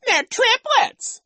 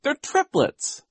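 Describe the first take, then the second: First: Squealed, slow falsetto echo; shrieking childish imitation; mocking mimicry. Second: Put-on high, emphatic girl's correction; earnest girl's correction; indignant cry. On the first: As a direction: parrot her in a very high, loud jeer. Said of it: "Nero mocked". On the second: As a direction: insist on it, slow and raised. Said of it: "Violet cried". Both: A narrator's reading.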